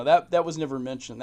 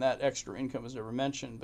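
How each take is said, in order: First: Louder, punched out; a sudden burst of emphasis; emphatic. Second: Said in the usual way. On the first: Real, not acted. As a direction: stress it hard, almost indignant. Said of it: "repeats the line with force". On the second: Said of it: "repeats the line more quietly".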